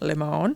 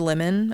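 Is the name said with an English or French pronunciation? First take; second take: French; English. First: The name is said with a French pronunciation. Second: The name is said with an English pronunciation. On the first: "taking liberties with that French accent" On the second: "Or Lemon"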